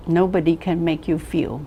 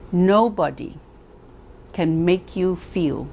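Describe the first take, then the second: First: Said in the usual way. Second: "Nobody" set apart, then "can make you feel" slow; weighty "Nobody" and a slow pause; slow stress on Nobody. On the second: Shown as a demonstration. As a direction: pause after "Nobody", drawn out.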